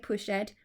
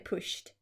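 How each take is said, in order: First: The ending is said as a separate syllable. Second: The ending is said as a short T sound. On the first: The speaker calls it wrong. "we don't say pushed" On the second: The speaker calls it right. "we say pushed"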